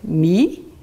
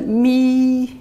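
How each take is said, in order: First: The pitch rises from mid to high. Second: The pitch stays high and level. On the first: "Ça monte" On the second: "premier ton plat"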